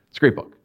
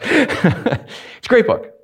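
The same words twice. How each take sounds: First: Said in the usual way. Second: Slow, laughing through "great book". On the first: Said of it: "Right, Chelsea?". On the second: Real, not acted. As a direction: let the laugh carry it. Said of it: "You know it inside and out".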